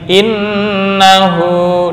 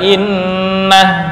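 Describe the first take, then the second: First: The word ends with the vowel u. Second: The word ends on h, vowel dropped. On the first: The reading continues without a stop. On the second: The reader stops on this word.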